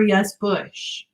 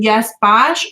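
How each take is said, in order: First: The name is said with the vowel of 'bush'. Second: The name is said with the vowel of 'bosh'. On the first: "or yes Bush" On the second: "is it yes Bosch"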